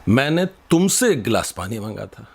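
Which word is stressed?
तुमसे. The word तुमसे carries the strongest stress. I asked you, not someone else. "तो तुमसे मांगा था"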